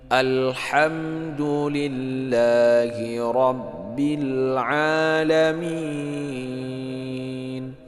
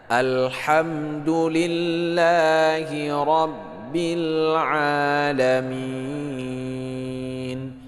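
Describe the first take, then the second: No difference in how they are said.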